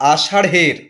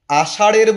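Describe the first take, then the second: First: আষাঢ়ের said "ashaṛh-er", with H after the flap; aspirated ঢ়. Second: আষাঢ়ের said "ashaṛ-er", no H after the flap; unaspirated flap. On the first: Teacher corrects for learners, আষাঢ়ের with aspirated ṛh. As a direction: breathe out on the ঢ় in আষাঢ়ের. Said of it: "আষাঢ়ের বলছি না". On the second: Teacher shows what not to say, আষাঢ়ের without aspiration. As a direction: drop the breath from ঢ় in আষাঢ়ের. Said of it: "বলছি না". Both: Shown as a demonstration.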